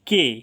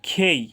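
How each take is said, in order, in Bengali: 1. প্রথম ব্যঞ্জনে বাতাসের কোনো ফুঁ নেই। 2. প্রথম ব্যঞ্জনে বাতাসের ফুঁ আছে। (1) "এটা বলছি আমরা কে" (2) "বাট এটা সঠিক উচ্চারণ হবে খেই"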